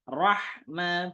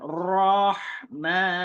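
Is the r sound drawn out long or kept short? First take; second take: short; long. First: The r sound is kept moderately short. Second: The r sound is drawn out long. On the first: The speaker calls it right. "rohma biasa. Dialirkannya pertengahan" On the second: The speaker calls it wrong. "Bukan rohma"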